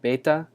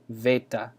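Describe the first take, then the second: First: The word begins with a B sound. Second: The word begins with a V sound. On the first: This is how many people say it. "will say this with a B, like beta" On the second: This is the modern Greek and reconstructed Koine pronunciation. "in modern Greek and the reconstructed Koine ... is V"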